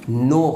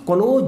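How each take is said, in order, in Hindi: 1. शब्द की शुरुआत n ध्वनि से होती है। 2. शब्द की शुरुआत k ध्वनि से होती है। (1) "इसका जो राइट नो होगा" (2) "ये क्नो जो गलत है"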